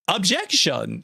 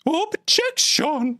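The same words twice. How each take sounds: First: Higher mock courtroom cry; badly faked dramatic objection; terrible Cubics impression. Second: Very high, drawn-out squeaky objection; badly faked falsetto cry, stretched slowly; even worse Cubics impression. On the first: Streamer imagining a recorded objection, terrible impression. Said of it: "it's a terrible Cubics impression". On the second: Streamer retrying a terrible impression, even worse, hammed-up falsetto. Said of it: "that's even worse".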